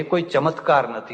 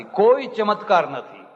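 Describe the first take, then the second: First: Said in the usual way. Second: "કોઈ" stressed, line said higher and slow; emphatic repeat. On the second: Shown as a demonstration. Preacher insisting to listeners there are no miracles, slow emphatic repeat. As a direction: drive home "કોઈ ચમત્કાર નથી" slowly and high. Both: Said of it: "repeated for emphasis".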